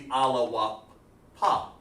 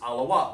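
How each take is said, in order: First: The word ends with a final 'ah' vowel. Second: The word ends on a consonant, vowel dropped. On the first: The speaker calls it wrong. "I wouldn't have dropped that A" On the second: The speaker calls it right. "you drop that ah or the A sound"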